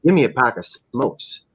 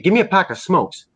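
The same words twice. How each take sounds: First: Mock menacing order. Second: Higher-pitched, easygoing mock request; casual retold order. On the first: Fan imitating a dealer pointing to his gun, understated menacing demand. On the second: Fan imitating a dealer at the store counter, casual higher request. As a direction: ask for it offhand, pitch up.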